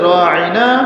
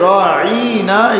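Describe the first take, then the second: First: The vowel is said short and plain. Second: The vowel is drawn out with an added y-sound. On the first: It means please pay attention to us. "আরবির মধ্যে রাঈনা" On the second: It is an insult calling someone foolish. "একটু টান দিয়ে বলা হতো, একটা ইয়া যোগ করে"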